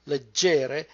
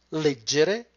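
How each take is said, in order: First: Leg-GE-re, weight on the middle syllable; stress on second syllable. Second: LEG-gere, strong first syllable, short middle; stress on first syllable. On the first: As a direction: stress the GE of "leggere", ending on a rise. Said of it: "put the stress on the second syllable". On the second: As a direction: punch the LEG of "leggere" and let the rest run. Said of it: "put the stress on the first one". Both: Shown as a demonstration.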